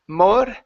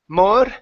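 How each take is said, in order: The two takes are said the same way.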